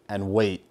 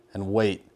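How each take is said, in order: Both takes have the same delivery.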